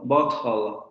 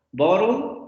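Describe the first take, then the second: First: "bottle" with a clear t; British bottle. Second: "bottle" with the t flapped to a quick d; American bottle. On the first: Teacher shows students the British "bottle", crisp t. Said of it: "en inglés británico estándar se va a cuidar". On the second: Teacher shows students the American "bottle", flapped t. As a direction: say "bottle" like "boddle". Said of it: "en inglés norteamericano van a encontrar bottle". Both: Shown as a demonstration.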